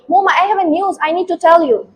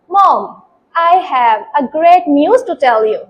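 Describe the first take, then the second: First: It is spoken quickly, in a hurry. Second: It is spoken slowly and softly.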